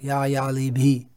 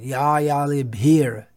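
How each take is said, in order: First: The last word ends without an R sound. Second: The last word ends with an R sound. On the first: The speaker calls it wrong. "not ya yali bhi" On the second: The speaker calls it right. "it's better to try to pronounce it"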